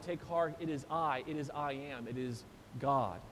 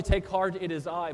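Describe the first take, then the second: First: Deepening reverent fade. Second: Said in the usual way. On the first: Shown as a demonstration. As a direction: lower and softer with each phrase. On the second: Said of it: "So not only".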